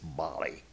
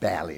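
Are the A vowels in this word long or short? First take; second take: long; short. First: The A vowels are said long. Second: The A vowels are said short. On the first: The speaker calls it right. "It's Bali. The A's are long" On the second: The speaker calls it wrong. "It's not Bali"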